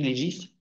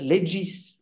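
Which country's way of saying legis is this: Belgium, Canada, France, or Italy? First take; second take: France; Italy. First: The word is said the French way. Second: The word is said the Italian way. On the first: "Je crois qu'en France, on dit legis" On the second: "Ceux qui sont allés en Italie disent le legis"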